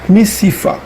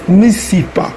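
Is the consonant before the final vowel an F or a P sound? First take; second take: F; P. First: The consonant before the last vowel is F. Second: The consonant before the last vowel is P. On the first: "ça se prononce en P ou en F" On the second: "ça se prononce en P ou en F"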